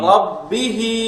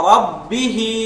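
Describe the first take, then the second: No difference in how they are said.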